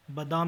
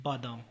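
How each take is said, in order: First: बादाम with a short first vowel; mispronunciation. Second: Said in the usual way. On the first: Shown as a demonstration. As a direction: say ba-daam for बादाम. (बादाम को बदाम बोलें) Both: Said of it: "नहीं".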